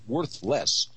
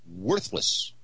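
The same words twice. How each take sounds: First: The stress falls on 'less'. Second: The stress falls on 'worth'. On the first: It is worth less than before. The speaker calls it wrong. "Not worthless" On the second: It is worth nothing at all. The speaker calls it right. "Worthless means it's not a squat"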